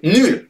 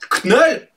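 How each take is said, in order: First: It is said like the French word nul. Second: The initial K is sounded before the vowel. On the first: "ça se dit pas non plus nul" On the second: "Ça ne se prononce pas Knull, pas comme une saucisse Knacky"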